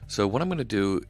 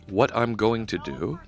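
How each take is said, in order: First: It is said fast. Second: It is said more slowly.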